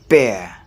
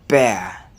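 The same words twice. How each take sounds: No difference in how they are said.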